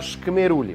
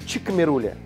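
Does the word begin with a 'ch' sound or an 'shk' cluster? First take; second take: shk; ch. First: The word begins with an 'shk' cluster. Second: The word begins with a 'chi' sound. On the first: The speaker calls it right. "а Шкмерули" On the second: The speaker calls it wrong. "Не Чикмерули"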